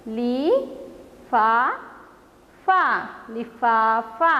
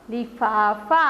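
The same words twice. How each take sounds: First: Slow drawn-out reading. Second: Said in the usual way. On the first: Shown as a demonstration. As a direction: stretch लिफाफा out slowly, syllable by syllable. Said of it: "और एक बार पढ़ते हैं". (लिफाफा को बहुत धीरे, खींचकर पढ़ना)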